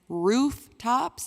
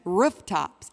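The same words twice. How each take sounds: First: Roof has a long oo vowel. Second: Roof has a shorter, different vowel. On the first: "as in ooh" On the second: "as in er, er"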